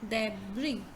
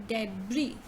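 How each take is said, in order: The two takes are said the same way.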